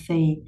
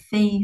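First: "thì" sinking below a level pitch; lowered tone. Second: Said in the usual way. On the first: Shown as a demonstration. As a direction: drop the voice on "thì". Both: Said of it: "xuống giọng là thì".

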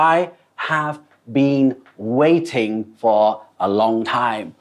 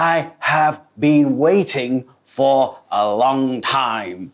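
First: Said in the usual way. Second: Annoyed customer. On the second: Shown as a demonstration. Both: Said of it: "บางครั้งเขาจะพูด".

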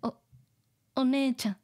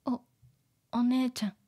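The two takes are said the same way.

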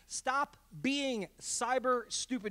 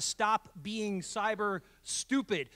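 First: "stop being cyber stupid" slowly, one word at a time; slow, deliberate emphasis on every word of "stop being cyber stupid"; emphatic repeat. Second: Said in the usual way. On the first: Shown as a demonstration. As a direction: hammer home "stop being cyber stupid", each word set apart. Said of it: "say it again for emphasis". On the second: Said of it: "I'm gonna say it again for emphasis".

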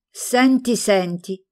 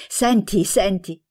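First: First senti pitched higher, then falls back; an old aunt bursting out with gossip; eager to share a scandal; exclaimed. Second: Eager, repeated call for attention; an old aunt bursting to share gossip; eagerly pulls her niece in with the news; enthusiastic. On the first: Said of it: "esclamò". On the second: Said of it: "ripeteva entusiasmata". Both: A narrator's reading.

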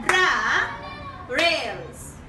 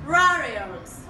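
First: "Ra-rails" in two drawn-out syllables with a pause between. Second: Said in the usual way. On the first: Shown as a demonstration. Teacher modelling a word for pupils to repeat, "Ra-rails" broken into slow syllables. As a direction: say "Ra-rails" slowly, split after "Ra". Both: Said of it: "Repeat after me".

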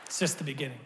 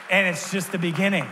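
First: Hushed echo. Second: Proclaimed. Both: Shown as a demonstration.

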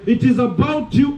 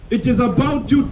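No difference in how they are said.

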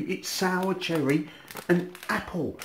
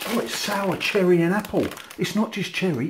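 First: "and" drawn out and leaned on in "it's sour cherry and apple"; slow "it's sour cherry and apple" with weight on "and apple"; stress on "and". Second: High, loud surprised realisation; suddenly noticing it on the label. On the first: Repeats the flavour, stressing the apple. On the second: Surprised on reading the packet again. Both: Real, not acted.

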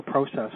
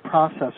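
First: "process" said PROH-sess; long O in the first syllable of "process"; long-O pronunciation. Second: "process" said PRAH-sess; short-O pronunciation. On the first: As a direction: say "process" starting like "pro". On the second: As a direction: open AH in the first syllable of "process". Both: Shown as a demonstration. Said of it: "depending on what country you're in".

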